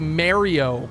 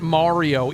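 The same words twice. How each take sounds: First: Mario is said with a regional Ontario pronunciation. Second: Mario is said with the usual American pronunciation. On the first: This is how people say it locally. "we say Mario" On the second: This is the pronunciation Americans consider correct. "not Mario"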